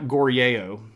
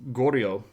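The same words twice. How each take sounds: First: It is three separate, drawn-out syllables. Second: It is two quick syllables blended together. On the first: The speaker calls it wrong. "it's not" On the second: The speaker calls it right. "it's kind of a two syllable word and it's rather fast and it blends together"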